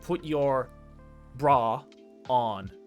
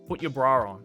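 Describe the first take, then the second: First: There is no r sound between bra and on. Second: An r sound links bra to on. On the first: "an American would say" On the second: "if I say it in an Australian accent, see if you can hear the invisible R"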